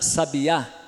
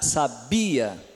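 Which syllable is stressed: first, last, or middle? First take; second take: last; middle. First: The stress is on the last syllable. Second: The stress is on the middle syllable. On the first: "aqui vem antes do a" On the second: "aqui vem antes do bi"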